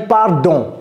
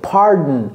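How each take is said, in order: First: The D in the middle is clearly pronounced. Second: The D in the middle is swallowed. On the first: The speaker calls it wrong. "J'ai pas dit pardon" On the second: The speaker calls it right. "Avalez le D"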